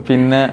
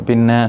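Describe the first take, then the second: The two takes are said the same way.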